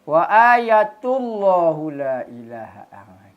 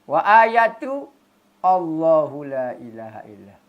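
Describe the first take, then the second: First: Allahu is linked without a glottal stop. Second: A glottal stop is sounded before Allahu. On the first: "Tak bunyi hamzah" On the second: "Kalau qata' mesti bunyi"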